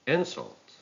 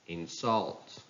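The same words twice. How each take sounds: First: "insult" as IN-sult, high start; stress on first syllable. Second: "insult" as in-SULT; stress on second syllable. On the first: Teacher reading a noun, "insult" stressed on IN. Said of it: "stress on the first syllable". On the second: Teacher reading a verb, "insult" stressed on SULT. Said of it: "stress falls on the second syllable". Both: Shown as a demonstration.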